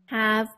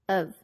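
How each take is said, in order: First: The word is said fully with its h sound. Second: The word is said weakly, sounding like 'of'.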